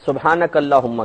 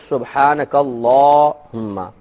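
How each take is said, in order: First: The 'la' vowel is said short. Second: The 'la' vowel is drawn out long. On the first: The speaker calls it wrong. "सुबहानक अल्लाहुम्मा कहते हैं" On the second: The speaker calls it right. "ला को लंबा खींचेंगे क्योंकि खड़ा जबर है"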